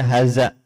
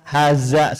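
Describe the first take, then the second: First: The middle consonant is a voiced th sound. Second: The middle consonant is a plain z sound. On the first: The speaker calls it right. "ini harus diluruskan ya supaya benar pengucapannya" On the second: The speaker calls it wrong. "bukan cuman za, haza, salah"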